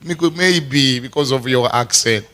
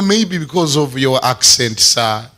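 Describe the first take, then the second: First: Repeated slowly and softer; careful slow repeat. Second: Slow, careful explanation; polite slow reply; slow deliberate. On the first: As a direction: say it again slowly, a bit quieter. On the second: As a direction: spell it out slowly. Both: Retold or imitated. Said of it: "Ne mugamba".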